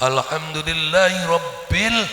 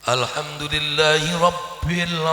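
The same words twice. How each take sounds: Both takes have the same delivery.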